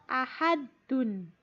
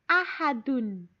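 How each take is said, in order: No difference in how they are said.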